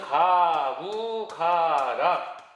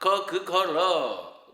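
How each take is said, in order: First: The characters are read with Korean sounds. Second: The characters are read with Mandarin sounds. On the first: "우리말로 표기하면" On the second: "중국어 발음으로 하면"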